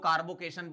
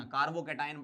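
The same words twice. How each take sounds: First: कार्बोकेशन with "-केशन", like "-kay-shun"; mispronounced carbocation. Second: कार्बोकैटायन with "cat-ion" at the end; correct carbocation pronunciation. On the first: Teacher showing students the common misreading, कार्बोकेशन ending in "-kay-shun". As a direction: end कार्बोकेशन as in "vacation", not "cat-ion". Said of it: "ऐसे नहीं पढ़ना". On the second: Teacher correcting students' reading, कार्बोकैटायन ending in "cat-ion". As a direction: say कार्बोकैटायन as carbo-CAT-eye-un, not "-kay-shun". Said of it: "पढ़ना है इसको". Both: Shown as a demonstration.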